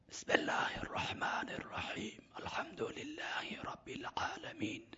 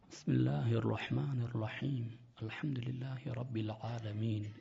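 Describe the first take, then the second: First: It is recited in a whisper, without voicing. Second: It is recited with full voice. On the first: It counts as reciting quietly. "این صدا چیه؟ بی جوهره" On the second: It counts as reciting aloud. "این صدای با جوهره"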